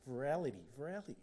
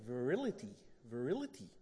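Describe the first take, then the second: First: "Virality" with "ral" as in "rally"; wrong pronunciation. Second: "Virility" with "ril" as in "rill"; corrected pronunciation. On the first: Preacher repeating his slip to the congregation, "Virality" mispronounced. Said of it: "I must have said that wrong". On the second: Preacher checking the word with his wife, "Virility" corrected. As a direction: try out "Virility" carefully, vuh-RIL-ity. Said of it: "Am I saying it right now?". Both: Shown as a demonstration.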